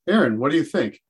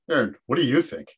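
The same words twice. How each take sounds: First: The question sounds sincere and genuinely interested. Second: The question sounds mocking and sarcastic. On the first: The teacher truly wants the student's opinion. The speaker calls it right. "There's a big difference between saying" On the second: The teacher is mocking the student. The speaker calls it wrong. "This is where sarcasm can really kill everything"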